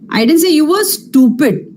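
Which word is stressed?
stupid. The word 'stupid' carries the main stress. A different insult was meant. "Maybe you're an idiot, but I didn't say you were stupid at least"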